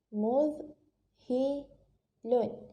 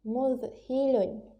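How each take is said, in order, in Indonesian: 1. Dibaca suku kata demi suku kata dengan jeda. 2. Dibaca lancar sebagai satu kata yang tersambung. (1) "suku kata mudhilun" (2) "Bila kita cantumkan menjadi perkataan, cara bacaannya ialah mudhilun"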